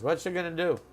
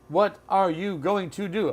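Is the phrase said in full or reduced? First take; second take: reduced; full. First: The words are reduced and run together. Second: Every word is said fully and separately.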